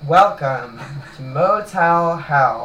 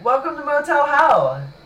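First: It is said with moderate enthusiasm. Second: It is said with overdone enthusiasm.

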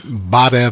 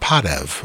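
First: The word begins with a voiced B sound. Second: The word begins with a voiceless P sound. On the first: This is the Eastern Armenian form. "Badev is more ... Eastern" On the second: This is the Western Armenian form. "Padev would be hello or... In Armenian, but that would be more Western"

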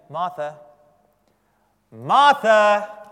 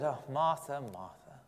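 First: It sounds like calling to get attention. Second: It sounds exasperated and weary.

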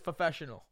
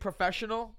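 First: The word is pronounced with a distorted sound. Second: The word is pronounced in the standard way. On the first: This imitates a relative's speech impediment. The speaker calls it wrong. "my father has a speech impediment, ... my father says professional" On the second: This is the usual way to say it. The speaker calls it right. "instead of saying professional"

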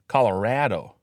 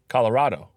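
First: The stressed A sounds like a flat 'a'. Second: The stressed A sounds like a broad 'ah'. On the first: This is how locals say it. "That A is an A" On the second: This is how most people in the country say it. "You say Colorado"

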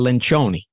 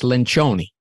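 First: The name is pronounced in an Italian style. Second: The name is pronounced in an Italian style.

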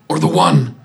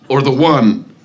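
First: It is said in a weak, dying voice. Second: It is said in an ordinary, healthy voice. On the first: The speaker calls it right. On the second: The speaker calls it wrong.

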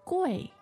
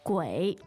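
First: The pitch falls sharply from high to low. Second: The pitch dips low and then rises. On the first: It means expensive. "If you said the fourth tone" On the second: It means ghost. "Third tone"

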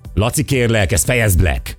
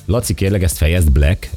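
First: The line is said in an angry tone. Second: The line is said in a calm tone.

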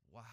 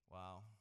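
First: It is said with quiet awe. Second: It is said with bored indifference.

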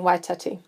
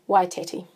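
First: The name is said with Māori vowel sounds. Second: The name is said with English vowel sounds. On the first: The speaker calls it right. "that's something that I've really had to work hard at changing" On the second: The speaker calls it wrong. "I certainly did not pronounce it that way as I was growing up. It was Waitati"

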